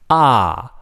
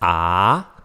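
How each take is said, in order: First: The pitch falls sharply from high to low. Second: The pitch rises from middle to high. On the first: "the fourth one is a falling tone" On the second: "rising tone"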